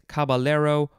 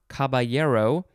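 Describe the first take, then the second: First: The double L is said as an L sound. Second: The double L is said as a Y sound.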